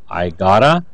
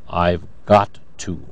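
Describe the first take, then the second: First: The words blend into a reduced 'gotta'. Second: Every word is said fully and separately. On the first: "These are reduced forms" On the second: "notice, I've got to"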